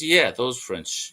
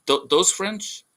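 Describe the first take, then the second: First: "those French" slower, falling in confirmation; confirming. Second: "those French" high with a rising question. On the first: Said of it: "but he goes". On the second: Alien checks who is meant. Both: Acted.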